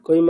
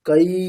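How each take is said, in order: First: The vowel is clipped short and unclear. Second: The vowel is said fully and clearly. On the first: The speaker calls it wrong. "ছোট করে বলে দিল একটা ঐকার স্পষ্ট হলো না" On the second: The speaker calls it right. "একেবারে স্পষ্ট কই কই স্পষ্ট"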